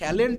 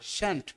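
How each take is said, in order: First: It is said with two syllables, keeping the l. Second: It is said with one syllable, dropping the l. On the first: The speaker calls it wrong. "উচ্চারণটাও কি শ্যালেন্ট না" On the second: The speaker calls it right.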